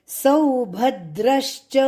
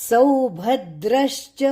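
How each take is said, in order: Both takes have the same delivery.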